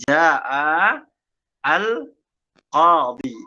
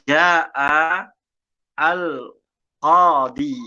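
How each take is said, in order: The two takes are said the same way.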